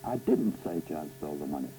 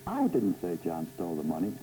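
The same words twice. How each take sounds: First: The stress is on "didn't". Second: The stress is on "I".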